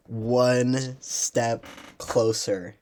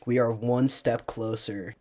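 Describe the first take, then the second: First: Each word of "one step closer" drawn out very slowly; slow emphasis. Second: Said in the usual way. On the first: Shown as a demonstration. Vlogger savoring the win for fellow fans, "one step closer" very slow. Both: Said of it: "that's two".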